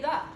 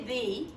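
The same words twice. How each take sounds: First: The vowel in the word is a reduced uh. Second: The vowel in the word is full. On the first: The speaker calls it right. "We say the. ... It has a schwa. It says uh" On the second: The speaker calls it wrong. "We don't say the"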